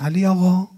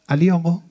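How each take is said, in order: First: The second syllable is drawn out longer. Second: The name is called normally, without stretching. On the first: The person being called is a little farther away. "هجا رو بلندتر میکنید، هجای دوم رو میگید" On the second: The person being called is standing close by. "نزدیکتون ایستاده است"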